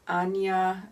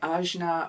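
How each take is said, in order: First: The J sound is soft and not emphasized. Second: The J sound is clearly emphasized. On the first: This is the original Sanskrit pronunciation. "I think I've pronounced that correctly" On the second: This is how English speakers might say it. "English-speaking people like Australians like me might say Ajna, to put an emphasis on the letter J"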